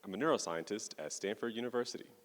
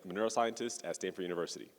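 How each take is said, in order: First: It is spoken at a slower pace. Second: It is spoken at a normal, faster pace. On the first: "I'll go a bit slower" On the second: "I can speak at my regular pace. One"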